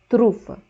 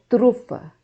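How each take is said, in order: The two takes are said the same way.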